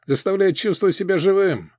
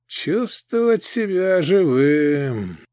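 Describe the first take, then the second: First: Said in the usual way. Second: Slow, sad echo; sad repetition. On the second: Acted. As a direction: repeat it slowly and sadly. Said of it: "печально повторил гоблин".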